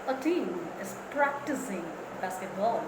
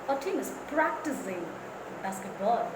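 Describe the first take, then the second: No difference in how they are said.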